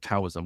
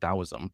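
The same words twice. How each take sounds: First: The word begins with a T sound. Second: The word begins with a D sound. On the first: The speaker calls it wrong. "I've been calling it Taoism, which is not one hundred percent correct" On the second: The speaker calls it right. "pronouncing it Taoism, uh, which is technically correct"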